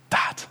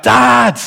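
First: A soft, hesitant call into the dark; quiet call for Dad. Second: A high, loud wake-up call; loud call for Dad. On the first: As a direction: call him so gently he could sleep through it. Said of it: "no one's gonna hear that". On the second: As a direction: call out so he finally wakes. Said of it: "loud enough that he would wake up". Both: Retold or imitated.

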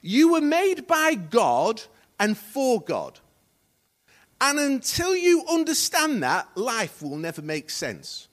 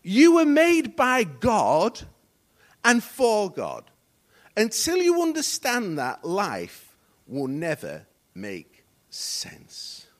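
First: Loud, slow proclamation, easing at the end; emphatic quotation. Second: Very slow, loud declaration sinking to a hush; emphatic slow repeat. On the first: Preacher quoting a writer to congregation, emphatic proclamation. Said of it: "Rick Warren said this". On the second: Preacher repeating the quote so it sinks in, very slow and weighty. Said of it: "Let me say it again". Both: Real, not acted.

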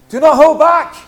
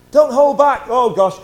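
First: Much louder, higher call; rousing shout. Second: Loud, higher call to the room; urging shout. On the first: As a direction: drive it home to the crowd. Repeated exhortation, louder. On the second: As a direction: cry it out to push them on. Pastor urging congregation loudly. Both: Real, not acted.

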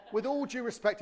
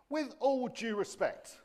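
First: Quoted, higher and louder; mock polite. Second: Laughing, slow and high; amused. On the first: Shown as a demonstration. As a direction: present it as a well-worn phrase. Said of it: "the least disrespectful thing". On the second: Real, not acted. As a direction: savour the phrase with a chuckle. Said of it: "if you've not heard this one before".

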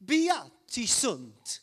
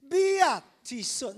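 First: Slow, drawn-out Italian accent. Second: Hammed-up Italian accent, loud and high. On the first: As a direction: stretch it out in a loud Italian accent. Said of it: "say this with a, an Italian accent". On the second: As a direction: belt out a slow, stretched Italian phrase in accent. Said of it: "need to get more Italian than that". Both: Shown as a demonstration.

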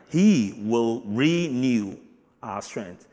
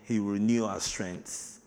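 First: Slow, loud stress on "he will renew"; emphatic repeat. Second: Said in the usual way. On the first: Shown as a demonstration. Preacher to congregation, repeating slowly with heavy stress. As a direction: lean hard on "he" in "he will renew", drawn out. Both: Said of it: "Eh, remember".

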